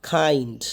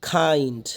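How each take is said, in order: No difference in how they are said.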